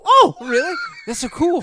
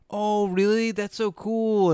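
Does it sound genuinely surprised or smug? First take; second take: genuinely surprised; smug. First: It sounds genuinely surprised and excited. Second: It sounds smug, gloating over the other person.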